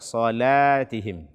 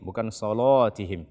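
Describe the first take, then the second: First: The L sound is light and thin. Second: The L sound is heavy and thick. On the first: The speaker calls it right. "Akan tetapi baca salatihim" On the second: The speaker calls it wrong.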